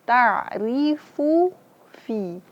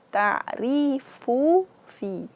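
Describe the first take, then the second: The two takes are said the same way.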